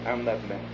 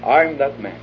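First: Lower, much softer confession; quiet confession. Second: "I'm" stressed, firm and level; emphatic claim. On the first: Preacher models the seeker's confession, soft and low. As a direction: let it fall to a near hush. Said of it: "to say". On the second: Preacher repeats the confession firmly, stress on I'm. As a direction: land on "I'm" with conviction. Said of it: "Let's talk about ourselves". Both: Shown as a demonstration.

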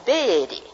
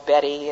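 First: Put-on Georgia accent, Betty drawn into BAY-dee; Catherine Cumming. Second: Said in the usual way. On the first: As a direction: imitate a Southern house mother's Georgia accent on Betty. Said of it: "used her Georgia accent". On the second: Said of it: "my brothers called me Betty".

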